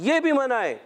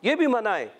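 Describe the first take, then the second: No difference in how they are said.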